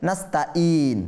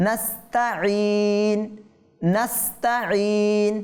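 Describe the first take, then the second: First: নাস্তাইন with a glottal stop instead of ain; wrong: hamza for ain. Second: Right form of নাস্তাইন; correct ain. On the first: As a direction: common mistake in নাস্তাইন. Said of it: "অনেকে বলে". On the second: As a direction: say নাস্তাইন slowly, ain clear. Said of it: "কি বলতে হবে?". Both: Shown as a demonstration.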